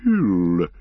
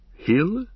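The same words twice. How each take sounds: First: Ancient tree-creature pondering "Hill", falling tune; "Hill" sounded out as a resonant, settled musing; thoughtful. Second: HILL lifted high with a questioning rise; "Hill" as a light, high-pitched question; tentative suggestion. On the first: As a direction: draw "Hill" out slowly and weightily. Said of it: "Treebeard repeated the words thoughtfully". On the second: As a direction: offer "Hill" as a short, rising guess. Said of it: "suggested Pippin". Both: A narrator's reading.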